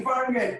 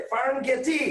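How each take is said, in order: First: ফার্মগেট said clipped, no final vowel; right pronunciation. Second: ফার্মগেটি said with a final টি, the spelling read literally; teacher says ফার্মগেটি with an added টি, as students misread it; wrong pronunciation. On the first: Teacher gives the correct ফার্মগেট, ending on ট with no vowel after. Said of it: "this is ফার্মগেট". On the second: Teacher shows the wrong reading ফার্মগেটি, said with a final টি. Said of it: "But this is not ফার্মগেটি". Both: Shown as a demonstration.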